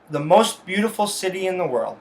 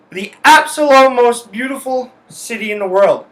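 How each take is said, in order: First: Said in the usual way. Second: "absolute" said higher and louder, punched; stress on absolute. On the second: Shown as a demonstration. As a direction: lean hard on "absolute" and lift the whole line. Repeats the praise more emphatically.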